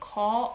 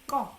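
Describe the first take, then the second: First: The first consonant is plain, like a single g. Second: The first consonant is tense, like a double g. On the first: "one G. ... This is a proper way" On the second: "Korean people pronounce it as if it's double G"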